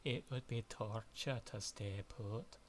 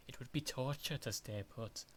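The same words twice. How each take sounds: First: Scottish accent, slow and deliberate; retry it in Scottish accent, slowly; slower Scottish accent. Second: A rough Scottish accent, out of practice. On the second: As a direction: try the line in a Scottish accent. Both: Shown as a demonstration. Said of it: "my Scottish voice is not in shape".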